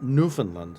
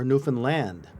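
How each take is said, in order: First: It is said the common American way. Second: It is said the way island locals say it. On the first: The speaker calls it wrong. "but not Newfoundland like we say here in the States" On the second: The speaker calls it right. "pronounced by the locals one of two ways"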